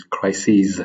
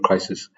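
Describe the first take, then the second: First: Crises said as kry-seez, plural ending seez; crises, not crisis. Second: Crisis said with a short sis ending; the singular crisis, ending in sis; wrong form crisis. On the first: Reading the quote, he fixes crisis to crises with a clear seez. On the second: Correcting himself, he drops his voice on the rejected crisis. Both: Shown as a demonstration. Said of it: "not crisis".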